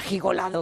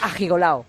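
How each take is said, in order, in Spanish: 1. La terminación se dice con sonido de d. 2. La terminación se dice sin el sonido de d. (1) "no pega decir ajigolado, que era súper snobby" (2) "Piden quitar la D"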